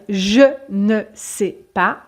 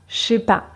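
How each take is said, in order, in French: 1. Le ne de la négation se prononce. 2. Le ne est supprimé et le je est réduit. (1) "au lieu de dire je ne sais pas" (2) "on ne prononce pas le E de je, donc on va dire je sais pas"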